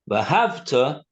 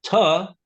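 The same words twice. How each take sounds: First: V'ahavta with the stress on the first part, va; front-stressed v'ahavta, the wrong meaning; stress on the start. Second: V'ahavta with the stress on the last syllable, tav; end-stressed v'ahavta, as a command. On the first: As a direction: push the opening syllable of v'ahavta. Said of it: "put the emphasis on the first part of the word". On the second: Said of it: "with the emphasis on the, the tuf at the end". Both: Shown as a demonstration.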